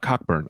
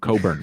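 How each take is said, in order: First: The name is said with a k sound. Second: The name is said without a k sound. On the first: The speaker calls it wrong. "I'm not Cockburn" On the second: The speaker calls it right. "We don't pronounce the C K"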